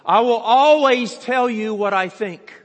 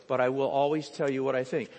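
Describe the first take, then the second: First: Higher, much louder, leaning on always; emphatic declaration. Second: Said in the usual way. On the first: Retold or imitated. Preacher voicing the tiny assistant stating her first rule, emphatic. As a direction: proclaim it like a stern boss.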